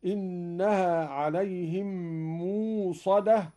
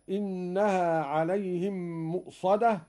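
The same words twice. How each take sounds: First: موصدة said mūṣada, with a long u and no glottal stop; موصدة with the hamza softened into waw; hamza made waw. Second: Said in the usual way. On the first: Shown as a demonstration. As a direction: draw out موصدة slowly, no hamza. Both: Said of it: "أبدل قالون الهمزة واوا".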